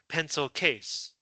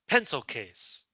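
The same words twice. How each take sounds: First: The stress falls on the second word. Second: The stress falls on the first word. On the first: The speaker calls it wrong. "you do not say" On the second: The speaker calls it right. "you say pencil case. You only emphasize the first word"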